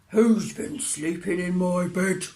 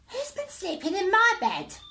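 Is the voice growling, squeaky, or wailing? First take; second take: growling; squeaky. First: It is said in a deep growling voice. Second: It is said in a tiny squeaky voice.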